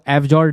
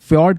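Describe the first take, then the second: First: It starts with a separate 'ef' then 'jord'. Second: It starts with a single 'fy' sound cluster. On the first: The speaker calls it wrong. "इसको एफ जॉर्ड नहीं" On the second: The speaker calls it right. "फ्योर्ड करके pronounce करेंगे हम"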